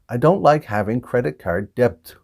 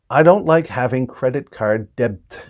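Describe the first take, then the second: Both takes have the same delivery.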